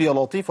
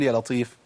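First: يا لطيف with a thick, dark lam; heavy lam. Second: يا لطيف with a thin, clear lam; light lam. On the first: Teacher asks which one you say, heavy lam. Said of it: "هو أنت بتقول يا لطيف ولا". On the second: Teacher offers the right alternative, light lam. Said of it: "ولا بتقول يا لطيف". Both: Shown as a demonstration.

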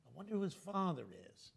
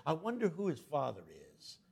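First: Softer, muttered repeat of I wonder who his father is; fading gossip. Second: Said in the usual way. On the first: Retold or imitated. Gossip echoing in Ben's head, fading to a murmur.

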